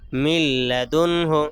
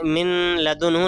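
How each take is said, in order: First: The n merges fully into a clear l. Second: The n is kept and nasalized before l. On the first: The speaker calls it right. "मिल लदुन आवाज़ को खूब जाहिर करके पढ़ेंगे" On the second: The speaker calls it wrong. "मिन लदुन हो नहीं पढ़ेंगे"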